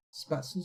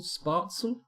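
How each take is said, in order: First: Spatzel with a short flat A, rising as a question; unsure reading of Spatzel, "spat" first syllable; trying a pronunciation. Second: Spatzel as "SPART-sul?", higher and questioning; long AH in the first syllable of Spatzel; unsure reading of Spatzel, "spart" first syllable; trying a pronunciation. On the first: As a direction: try Spatzel as "SPAT-sul?". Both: Real, not acted. Trying readings of unknown word.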